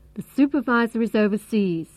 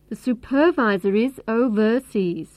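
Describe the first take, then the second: First: Supervisor is stressed on its first syllable. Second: Supervisor is stressed on its second syllable. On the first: The speaker calls it right. "the main stress is on the first syllable" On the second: The speaker calls it wrong. "If we stress the second syllable"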